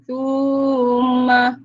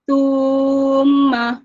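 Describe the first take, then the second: Both takes have the same delivery.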